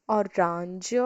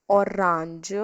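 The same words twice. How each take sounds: Both takes have the same delivery.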